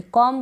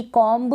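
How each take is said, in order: First: Said in the usual way. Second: कॉम्ब with the B sounded; wrong pronunciation. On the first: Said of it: "कॉम बोलेंगे". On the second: Shown as a demonstration. Teacher showing the error, कॉम्ब with final B. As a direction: add an audible B to the end of कॉम्ब. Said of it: "बोलेंगे ना तो गलत हो जाएगा".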